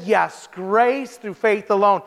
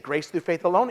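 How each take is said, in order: First: Slow, firm statement, falling at the end; steady, falling reply; pastor's firm answer. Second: Rising, questioning repeat of "Grace through faith alone?"; lower, softer and rising at the end; surprised echo. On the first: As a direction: state it plainly and settle it. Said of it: "He said". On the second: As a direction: echo it back in disbelief. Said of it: "And she said". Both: Retold or imitated.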